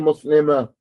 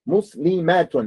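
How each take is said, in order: First: The word ends on a plain open 'a'. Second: The word ends with a full 'atun' sound. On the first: The speaker calls it wrong. "Don't say muslima" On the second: The speaker calls it right.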